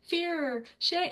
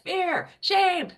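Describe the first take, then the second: First: The words are spoken very quietly. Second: The words are spoken loudly. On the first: The feelings are held back. The speaker calls it wrong. "at first they're like really quiet with it" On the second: The feelings are let out. The speaker calls it right. "say it louder"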